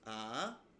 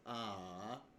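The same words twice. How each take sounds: First: The pitch rises from start to end. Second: The pitch dips down and then rises. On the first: "it can rise upwards from a basic starting position upwards" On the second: "a dipping and then rising tone"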